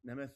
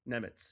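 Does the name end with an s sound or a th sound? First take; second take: th sound; s sound. First: The name ends with a th sound. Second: The name ends with an s sound. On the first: The speaker calls it wrong. "I always mispronounce his name" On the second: The speaker calls it right. "Yeah, that's what it is"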